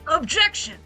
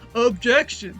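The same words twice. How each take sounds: First: An impression of the character's old voice. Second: An impression of the character's new voice.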